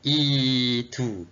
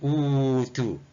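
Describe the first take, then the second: First: The word begins with an 'i' vowel. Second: The word begins with a 'u' vowel. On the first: The speaker calls it right. "tapi dibaca itu" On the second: The speaker calls it wrong. "Tak baca utu"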